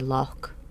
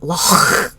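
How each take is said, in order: First: The word ends in a hard k sound. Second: The word ends in a throaty, spitting hiss. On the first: "if you don't want to spit when you say it, you just say lock" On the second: "Not loch"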